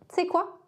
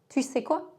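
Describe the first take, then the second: First: The first vowel is dropped, merging the words. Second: Both words are fully pronounced. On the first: "On dit souvent t'sais" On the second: "Pour tu sais"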